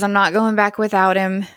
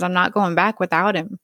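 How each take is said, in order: First: Retold yelling. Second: Falling apart. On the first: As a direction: insist he won't leave the boy, raised but restrained. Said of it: "he's still yelling". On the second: Retold or imitated. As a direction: say it like a worn-out father, understated. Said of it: "Michael's falling apart again".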